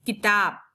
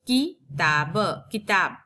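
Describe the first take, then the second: First: Said in the usual way. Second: किताब drawn out, syllable by syllable; slow syllable split. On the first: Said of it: "ई की मात्रा का अभ्यास". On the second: Shown as a demonstration. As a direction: teach किताब slowly, part by part. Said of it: "उच्चारण एकदम छोटा, जल्दी होता है". (किताब को धीरे धीरे तोड़कर बोलना)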